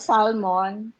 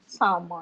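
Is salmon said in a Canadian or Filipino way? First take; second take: Filipino; Canadian. First: The word is said with a Filipino pronunciation. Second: The word is said with a Canadian pronunciation. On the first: "Filipino salmon" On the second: "sa mga at taga Canada, it's called salmon"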